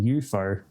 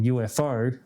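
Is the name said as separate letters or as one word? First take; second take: one word; separate letters. First: The name is said as one blended word. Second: The name is said as three separate letters. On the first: This is the new way the brand name is said. "someone pronounced it to me one day saying U F O" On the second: This is the usual reading the speaker wanted to avoid. "the three initials"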